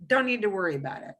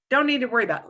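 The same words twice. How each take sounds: First: Said in the usual way. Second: "Don't" leaned on, a bit louder; emphatic repeat. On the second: Shown as a demonstration. Teacher insisting to student that "Don't" worry, firmly stressed. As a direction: stress "Don't" to drive the point home.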